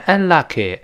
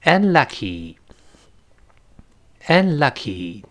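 First: "unlucky" ending in eh, like "un-luck-eh"; wrong final vowel. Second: "unlucky" very slowly, ending in long ee; drawn-out model "unlucky", final ee held; correct final ee. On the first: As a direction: mispronounce the end of "unlucky" as eh. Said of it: "所以不能读成unlucky". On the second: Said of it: "不是这么读的". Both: Shown as a demonstration.

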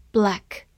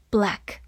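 The two takes are said the same way.

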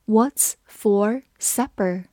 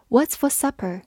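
First: Slow, careful reading. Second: Said in the usual way. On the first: Shown as a demonstration. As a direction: read "What's for supper" very slowly. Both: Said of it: "把第一个句子慢读一遍".

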